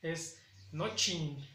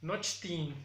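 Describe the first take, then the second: First: "nochin" despacio, sin t, "nochin"; mi pronunciación. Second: "nochtin" con "cht" bien marcado; lectura de lo escrito. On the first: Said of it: "Y para mí". ("nochin" pronunciado lento, sin la t) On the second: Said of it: "Otra palabra que maneja es". ("nochtin" tal como está escrito) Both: Shown as a demonstration.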